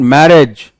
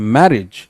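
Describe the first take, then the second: First: The stress is on the last syllable. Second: The stress is on the first syllable. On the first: The speaker calls it wrong. "it's not marriage" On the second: The speaker calls it right. "इधर से चढ़ रहा है फिर नीचे आ रहा है"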